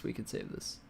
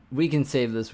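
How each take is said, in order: First: Whispered to himself; whispering. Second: Said in the usual way. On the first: Real, not acted. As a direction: breathe it out under your breath. Repeats phrase, fading to whisper.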